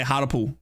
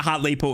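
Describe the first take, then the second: First: "Hartlepool" as HAR-da-pool; mispronounced town name. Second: "Hartlepool" as HART-lee-pool; corrected pronunciation. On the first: Commentator repeating his Australian slip, "Hartlepool" as HAR-da-pool. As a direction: swallow the middle of "Hartlepool" to a short uh. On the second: Commentator correcting his slip, "Hartlepool" as HART-lee-pool. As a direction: give "Hartlepool" a clear LEE in the middle. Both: Shown as a demonstration. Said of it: "What did I say?".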